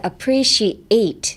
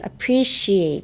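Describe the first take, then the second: First: The ending is restarted with a fresh push of voice. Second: The ending is glided through smoothly without a break. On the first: The speaker calls it right. "エイトのところをなんかもう一段階ちゃんとあの声を出して言いに行く" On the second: The speaker calls it wrong. "ちょっと流すんじゃなくて"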